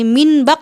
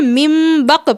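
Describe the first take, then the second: First: The first word ends with an n sound. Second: The first word ends with an m sound. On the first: The speaker calls it wrong. "मिन बक नहीं पढ़ेंगे" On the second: The speaker calls it right. "बल्कि मिम बक पढ़ेंगे"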